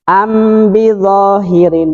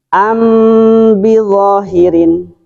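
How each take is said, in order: First: The m is clear with no nasal hum. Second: The m is held with a nasal hum. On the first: "Bisa tanpa gunah dalam arti diidharkan ... Jadi tidak mendengung" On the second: "Dengan gunah"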